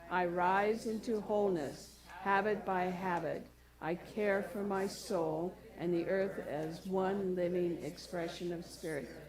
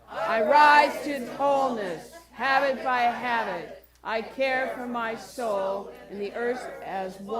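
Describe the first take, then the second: First: It is spoken at normal loudness. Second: It is shouted very loudly.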